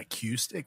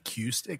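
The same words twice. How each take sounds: First: The middle syllable sounds like cue. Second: The same.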